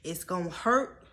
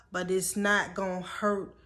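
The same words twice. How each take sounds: First: Said in the usual way. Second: "not" leaned on, a bit louder; stress on not. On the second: Shown as a demonstration. Correcting herself to viewers, stress on "not". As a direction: push the word "not" home.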